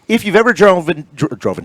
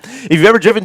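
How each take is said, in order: First: Stumbling over "driven", breaking off and restarting it; tongue-tied. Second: Said in the usual way. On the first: Real, not acted. Radio host fluffing his line about the highway, tongue-tied on "driven". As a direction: trip over "driven" with a false start. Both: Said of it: "I'm a little tongue-tied today".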